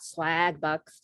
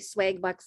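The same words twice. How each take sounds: First: It has a general American accent. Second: It has a Minnesota accent. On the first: "not Swag Bucks" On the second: "from Minnesota. That's why I say Swag Bucks"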